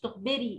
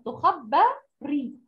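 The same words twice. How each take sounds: First: The vowel after the b is i. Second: The vowel after the b is a. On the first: The verb is active: she is the one telling. The speaker calls it wrong. "مش تخبري" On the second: The verb is passive: she is the one being told. The speaker calls it right. "تخبري الباء عليها فتحة"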